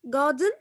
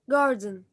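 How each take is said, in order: First: It is said in a British accent. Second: It is said in an American accent.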